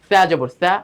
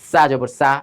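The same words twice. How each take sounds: First: The consonant is a soft 'th' sound. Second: The consonant is a hissing 's' sound. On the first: The speaker calls it right. "জিবার আগা দাঁতের আগার সঙ্গে লাগবে" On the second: The speaker calls it wrong. "এইভাবে পড়লে কিন্তু গলত ভুল হবে"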